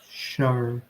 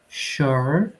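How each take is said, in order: First: It ends with a clear R sound. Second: It ends with a clear R sound.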